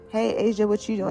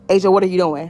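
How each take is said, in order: First: It is said in a casual, relaxed tone. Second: It is said in an urgent, serious tone.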